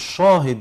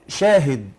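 First: The sh sound is heavy and full. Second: The sh sound is light and thin. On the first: The speaker calls it wrong. "مش" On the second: The speaker calls it right. "يبقى الشين مرققة"

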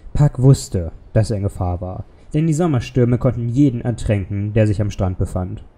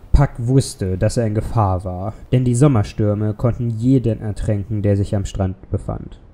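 The two takes are said the same way.

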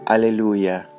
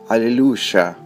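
First: It is said with a Central American pronunciation. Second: It is said with a South American pronunciation. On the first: "En América Central" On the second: "En Sudamérica"

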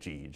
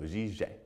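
First: The name is said with an American pronunciation. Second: The name is said with a French pronunciation. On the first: "or just Gige in the American pronunciation" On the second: "in the French alphabet, J is G and G is J, so Giget is how you would say it"

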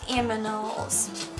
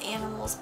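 First: The m comes before the n, cutely. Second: The n comes before the m, plainly. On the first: The speaker calls it wrong. "I like to say aminals when it's in a cute voice" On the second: The speaker calls it right. "I know it's animals"

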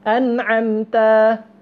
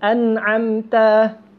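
No difference in how they are said.

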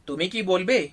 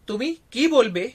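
First: The word ki carries no special stress. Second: The word ki carries strong stress. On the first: It asks whether the listener will speak. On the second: It asks what the listener will say.

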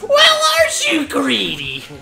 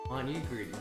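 First: It is said in an imitated Toad voice. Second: It is said in a normal voice.

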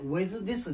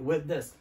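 First: Both th sounds are said separately. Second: The two th sounds merge into one. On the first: The speaker calls it wrong. "With this じゃなくて" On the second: The speaker calls it right. "吸収されます"

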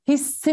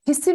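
First: The s sound is doubled and held. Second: The s sound is single and short. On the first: The speaker calls it right. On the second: The speaker calls it wrong.

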